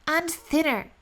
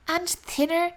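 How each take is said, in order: Both takes have the same delivery.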